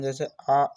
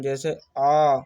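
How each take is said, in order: First: आ clipped short, a quick short vowel; teacher saying आ briefly for a short vowel; short vowel demo. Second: आ held for double length; long vowel demo. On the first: Teacher shows students a short vowel, आ said quick. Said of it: "हास्य स्वर, जिनके उच्चारण में कम समय लगता है". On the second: Teacher shows students a long vowel, आ drawn out. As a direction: stretch the आ out twice as long. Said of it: "दोगुना समय लगता है". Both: Shown as a demonstration.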